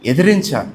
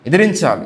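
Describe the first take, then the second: No difference in how they are said.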